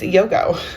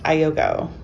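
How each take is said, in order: First: The name starts directly with a 'y' sound. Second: The name starts with an extra vowel sound. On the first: The speaker calls it right. "it's Yogo" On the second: The speaker calls it wrong. "this is not pronounced Ayogo"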